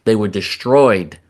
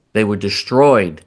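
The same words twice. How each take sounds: First: Slow, heavy stress on destroyed; slow emphatic. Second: Slow, heavy stress on destroyed; repeated slow emphasis. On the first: Host stressing that Iraq's weapons were destroyed, slow and firm. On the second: Host repeating that the weapons were destroyed, heavy stress. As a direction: hammer destroyed home again. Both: Shown as a demonstration.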